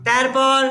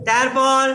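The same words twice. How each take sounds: The two takes are said the same way.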